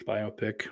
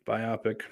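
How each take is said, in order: First: "biopic" said bye-OH-pick; corrected "biopic" with an oh in the middle; bio-pic with "bye-oh". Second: "biopic" said bye-AH-pick; first try, "biopic" with an open ah in the middle; bio-pic with "bye-ah". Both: Shown as a demonstration.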